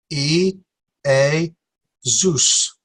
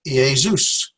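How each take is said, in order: First: "E, A, Zeus" with a pause after each syllable; slow, separated "E, A, Zeus". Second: "E, A, Zeus" run together as ee-ay-ZOOS; whole word. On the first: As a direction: sound out "E", "A", "Zeus" one at a time. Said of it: "there are three". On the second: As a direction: blend "E, A, Zeus" into one word. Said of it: "Well, that's Jesus". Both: Shown as a demonstration.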